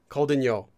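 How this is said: The pitch falls on the last syllable. The speaker is just giving information. "if you add a falling intonation to this form"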